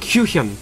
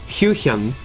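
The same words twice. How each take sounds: First: The name is said fast and forcefully. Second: The name is said slowly and carefully. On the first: The speaker calls it wrong. "I go to say it fast, I'm like" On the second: The speaker calls it right. "I said it pretty good there"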